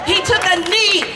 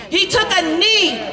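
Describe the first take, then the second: No difference in how they are said.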